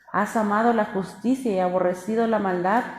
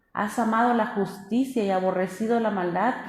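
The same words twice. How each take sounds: Both takes have the same delivery.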